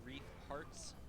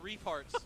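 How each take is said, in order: First: The phrase is said slowly and clearly. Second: The phrase is said fast and run together. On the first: The speaker calls it right. "I say that slowly" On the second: The speaker calls it wrong. "if you say it fast, it sounds disgusting"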